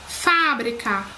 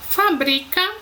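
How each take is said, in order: First: "Fábrica" stressed on FÁ; teacher's contrast word, "Fábrica" stressed at the start; antepenultimate stress. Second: "fabrica" stressed on BRI; teacher's contrast word, "fabrica" stressed in the middle; penultimate stress. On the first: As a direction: hit the first syllable of "Fábrica", then fall away. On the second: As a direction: lean on the middle syllable of "fabrica". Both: Shown as a demonstration. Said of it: "se não estiverem acentuadas".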